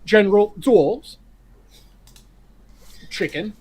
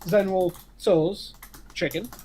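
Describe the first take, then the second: First: The name gets a careful Mandarin-like pronunciation. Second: The name gets the usual anglicized pronunciation. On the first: The speaker is being pedantic about the original name. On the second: The ordinary everyday way of naming the dish.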